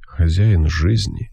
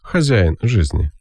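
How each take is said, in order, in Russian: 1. Произносится мягко, ненавязчиво и аристократично. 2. Произносится скромно, но уверенно. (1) "так мягко, ненавязчиво, аристократически" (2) "Ну или просто так, скромно, но уверенно"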